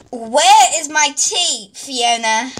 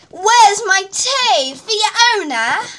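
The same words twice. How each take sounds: First: Slow, half-hearted call for tea; low-effort queen demand. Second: Higher, slow, imperious call for tea; demanding queen. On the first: Acted. Queen calling her maid for tea, underplayed. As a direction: ask for the tea without much push. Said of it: "add in, like, a little more effort". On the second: Shown as a demonstration. Director showing the queen how to demand tea, imperious. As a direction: put real effort into the demand. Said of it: "a little more effort".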